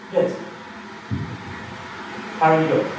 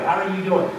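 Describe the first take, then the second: First: It is asked in a searching, intent way. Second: It is asked in a casual, passing way.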